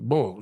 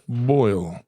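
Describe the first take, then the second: First: The vowel is an oh sound, like bowl. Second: The vowel is an oy sound, like boil. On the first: "but they pronounce it bowl" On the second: "It's a shrimp boil, B O I L"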